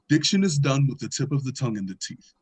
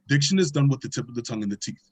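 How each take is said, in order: First: The sentence is said at a slow pace. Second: The sentence is said at a medium pace. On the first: "it'll be something as simple as" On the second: "every time you repeat the sentence, it gets faster"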